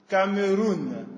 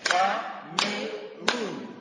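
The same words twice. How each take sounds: First: Said in the usual way. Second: "Cameroun" stretched as "Ca-me-roun", very slow and soft; syllables clapped out. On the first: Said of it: "Je vais vous lire une liste". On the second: Shown as a demonstration. Teacher clapping out "Cameroun" syllable by syllable for the class. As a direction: draw "Cameroun" out in three separate beats. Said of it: "tapiez des mains à chaque syllabe".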